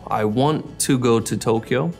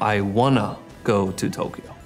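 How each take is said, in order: First: "Want to" is said as two separate words. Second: "Want to" is blended into one word, "wanna." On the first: "two words like uh, want to" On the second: "we'll say the word as almost one word"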